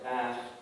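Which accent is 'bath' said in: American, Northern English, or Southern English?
American. The vowel is a short, raised front 'a'. "but they say"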